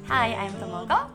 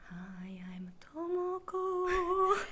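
First: It is said in a normal voice. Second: It is said in a spooky voice.

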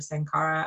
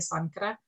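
First: The name is said with an English-style pronunciation. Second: The name is said with an Indian pronunciation. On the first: It is how the owner says her store's name. "as she pronounces it, like anglicized way" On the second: It names the place in India. "like the Indian location"

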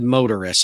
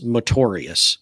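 First: The word ends like 'motorist', with an -ist ending. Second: The word ends like 'notorious', with an -ious ending. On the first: This is how the other person said the name. "I think you said motorist" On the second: This is how the speaker has always heard the name. "I've always heard it and thought it was motorious, like notorious"

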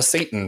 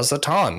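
First: The word is said with an American pronunciation. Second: The word is said with a Hebrew-style pronunciation.

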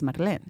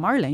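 First: The name is pronounced the Spanish way. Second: The name is pronounced the English way. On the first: The speaker calls it right. "Your name is Marlene. And you need an accent on your name" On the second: The speaker calls it wrong. "so then your name is not Marlene"

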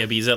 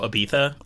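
First: It is said with an American pronunciation. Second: It is said with a British pronunciation. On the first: "But we say" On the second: "how the British pronounce Ibiza. They go"

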